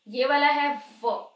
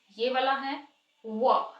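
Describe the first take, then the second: First: व said slowly with teeth on the lip; v sound demo. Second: व said slowly with rounded lips; w sound demo. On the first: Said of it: "दोनों को इकट्ठे रख के difference देख लेते हैं". (दाँत होंठ पर रखकर धीरे से व) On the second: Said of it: "lips को राउंड करके". (होंठ गोल करके धीरे से व) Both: Shown as a demonstration.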